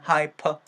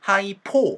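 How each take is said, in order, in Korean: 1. 두 번째 음절은 약하고 줄어들어요. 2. 두 번째 음절은 강하고 분명한 모음이에요. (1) "p 사운드로 힘이 좀 빠지겠죠" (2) "너무 hypo 하면서 포보다는"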